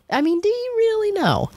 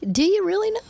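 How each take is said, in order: First: Sky-high repeat of the challenge. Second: Pitched way up, daring them to answer; a sky-high rhetorical challenge; challenging question. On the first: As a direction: press the question again, high and long. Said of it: "repeated rhetorical challenge". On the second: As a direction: throw the question up high at the crowd. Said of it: "rhetorical challenge to audience". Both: Real, not acted.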